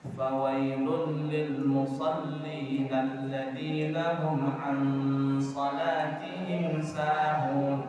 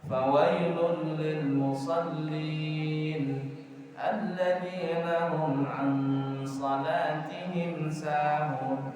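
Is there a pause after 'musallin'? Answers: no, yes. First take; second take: no; yes. First: The verse runs on without a break after musallin. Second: There is a clear break right after musallin. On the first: Woe to those who pray but are heedless of their prayer. The speaker calls it right. "Baca Qurannya begitu" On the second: Woe to those who pray. The speaker calls it wrong. "Jangan baca begitu. ... Jangan diputus"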